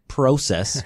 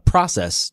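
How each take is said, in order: First: It is said with a Canadian-sounding vowel. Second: It is said with an American-sounding vowel. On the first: "which is what I would say in Canadian" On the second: "I now intentionally will say uh, process to you guys"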